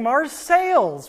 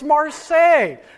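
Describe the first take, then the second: First: The word ends with an audible s sound. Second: The final letters are silent, with no s sound. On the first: This is how the local town says it. The speaker calls it wrong. "why are they saying Marseilles?" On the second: This is the original French way. The speaker calls it right. "they don't like to pronounce the last few letters of their words"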